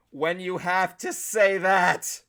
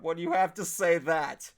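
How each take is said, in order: First: Slow, deliberate "have to say that"; drawn-out emphasis on every word; emphatic repeat. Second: Said in the usual way. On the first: Real, not acted.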